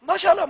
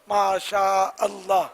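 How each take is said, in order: First: Masha and Allah run together into one word. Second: Masha and Allah are pronounced as separate words. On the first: The speaker calls it wrong. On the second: The speaker calls it right.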